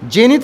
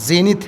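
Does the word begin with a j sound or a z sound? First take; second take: j sound; z sound. First: The word begins with a j sound. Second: The word begins with a z sound. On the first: The speaker calls it wrong. "जेनिथ नहीं है" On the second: The speaker calls it right. "ये जा वाला करेंगे, नुक्ता वाला"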